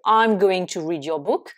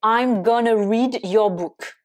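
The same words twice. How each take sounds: First: Said in the usual way. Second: "going to" run together as "gonna"; casual spoken contraction "gonna"; contracted gonna. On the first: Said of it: "la même chose que". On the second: Shown as a demonstration. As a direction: say "gonna" as one reduced word, schwa ending. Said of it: "ça correspond à going to".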